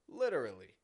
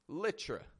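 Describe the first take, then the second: First: All syllables of the word are pronounced. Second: The word is squeezed down to a short form. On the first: It stresses that the statement is sincerely true. "When a native English speaker says the full word" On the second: It is a casual, informal use. "The other way is"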